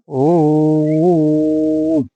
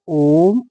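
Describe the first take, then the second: First: ओम held out long on one steady chanted note; pluta om. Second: Said in the usual way. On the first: Shown as a demonstration. Teacher showing students the pluta vowel in ओम, long and chanted. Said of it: "ओम प्लुत स्वर है।". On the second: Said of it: "कौन सा है प्लुत स्वर जी?".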